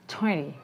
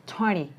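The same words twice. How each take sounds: First: The t sound after n is dropped. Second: The same.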